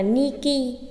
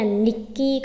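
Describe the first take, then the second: First: Said in the usual way. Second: "Niki" with a doubled k; "Niki" broken by a brief catch before k; geminate stop. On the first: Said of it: "nếu thế thì đọc là Niki". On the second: Shown as a demonstration. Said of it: "âm ngắt cơ".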